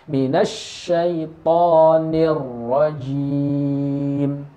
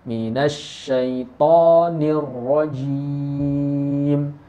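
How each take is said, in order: Both takes have the same delivery.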